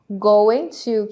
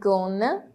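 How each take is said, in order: First: It is said as two full words. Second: It is reduced and blended into gonna. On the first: "que se transforma em gonna" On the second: "se transforma em gonna"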